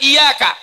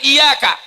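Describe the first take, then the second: First: The y sound is short, single. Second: The y sound is short, single.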